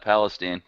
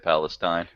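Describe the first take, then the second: First: It is pronounced the way Texans say it. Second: It is pronounced the way most people say it. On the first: "that's how we pronounce it in Texas" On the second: "everyone else in the world who would say Palestine"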